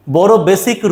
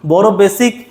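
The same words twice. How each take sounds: The two takes are said the same way.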